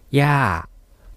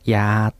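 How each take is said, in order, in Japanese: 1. この言葉は下がる声調で言います。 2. この言葉は平らな中くらいの声調で言います。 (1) "それからもう一つ下がる声調でやー" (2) "平らにやーというと薬ですね"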